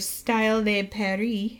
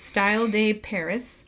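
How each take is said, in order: First: It is said with a French accent. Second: It is said with an English accent.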